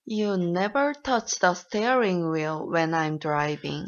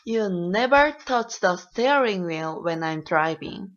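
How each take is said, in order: First: 'Never' is said quietly with weak stress. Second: 'Never' is said loudly with strong stress.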